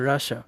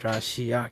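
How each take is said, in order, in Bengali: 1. শব্দটি 'sha' শব্দে শেষ হয়। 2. শব্দটি 'sia' শব্দে শেষ হয়। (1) "সঠিক উচ্চারণ হচ্ছে রাশা" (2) "আমরা উচ্চারণ করি বাংলাতে ... কিন্তু আসলে এটা রাশিয়া নয়"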